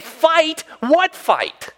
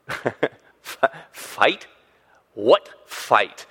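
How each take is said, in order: First: High-pitched, punched-out disbelief; mock incredulity. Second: Halting, stuttered disbelief with gaps; mock puzzlement. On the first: Imagined David ends comeback to brother, incredulous. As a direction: throw it back high and incredulous. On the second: Imagined David answers his brother, mock-puzzled. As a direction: play baffled, as if searching for it.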